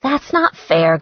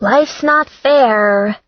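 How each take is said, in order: First: Said in the usual way. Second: Slow, louder, higher tart retort; tartly cheerful comeback, dragged out; cheerfully acerbic. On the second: Acted. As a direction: redhead answers her friend's protest, cheerfully acerbic. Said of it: "in a cheerfully acerbic voice".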